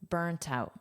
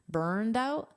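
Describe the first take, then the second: First: The first word ends with a soft T sound. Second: The first word ends with a soft D sound. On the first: "In British pronunciation is pronounced as a soft T" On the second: "I'm pronouncing this as a soft D because that's American English pronunciation"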